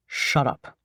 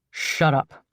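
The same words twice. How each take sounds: First: Weary, bored low sigh. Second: Short curt grunted command. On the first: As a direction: let it out tired, sighing. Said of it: "the man sighs". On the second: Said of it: "a man grunts". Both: Acted.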